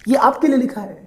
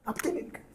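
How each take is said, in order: First: Said in the usual way. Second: Very soft, voiceless aside; whispered aside. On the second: Real, not acted. Teacher reminding students it is written for them, whispered. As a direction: drop right down to a whisper. Teacher repeats it under his breath.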